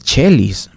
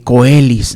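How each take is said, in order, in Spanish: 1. La palabra empieza con un sonido ch. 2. La palabra empieza con un sonido k fuerte. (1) "es chelis" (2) "no, no es coelis"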